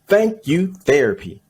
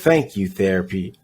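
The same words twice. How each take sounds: First: It is said loudly with sassy emphasis. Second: It is read in a plain, quiet voice.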